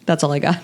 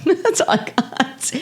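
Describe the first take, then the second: First: Said in the usual way. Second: Slow, higher, amused, with a laugh; laughing repeat. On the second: Shown as a demonstration. Cohost repeats her line to host, laughing slowly. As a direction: say it again, giggling at yourself.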